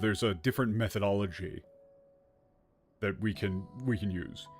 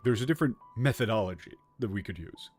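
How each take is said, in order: First: It is said plainly, without special emphasis. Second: It is said with marked, quote-like emphasis. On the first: The speaker is simply stating a fact. "instead of saying like" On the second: The speaker is mocking or highlighting the term. "You can hear the quotation marks"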